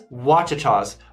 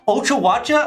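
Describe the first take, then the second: First: The name begins with a W sound: 'Washitaws'. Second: The name is garbled, sounding like 'Ochawacha'. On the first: The speaker calls it right. "Starts with an O, sounds like a W to me" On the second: The speaker calls it wrong. "let me tell you what I thought it was. / I butchered it hardcore"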